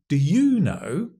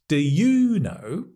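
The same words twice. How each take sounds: Both takes have the same delivery.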